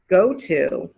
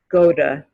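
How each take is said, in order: First: The T in 'to' is clearly pronounced. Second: The T in 'to' is softened and reduced.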